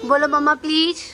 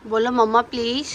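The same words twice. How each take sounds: First: Coaxing, louder, leaning on mamma; mother prompting her toddler with a firmer mamma. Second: Said in the usual way. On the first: Shown as a demonstration. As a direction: push the word mamma to prompt the child.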